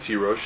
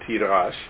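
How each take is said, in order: First: The last syllable is said 'rosh'. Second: The last syllable is said 'rash'. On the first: This is how the word is read aloud. "I read it Tirosh" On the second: This is how the word is written. "It's written Tirash"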